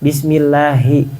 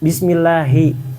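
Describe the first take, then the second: No difference in how they are said.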